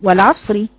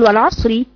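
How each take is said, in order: First: The r is light and carries a short i. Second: The r is light and carries a short i.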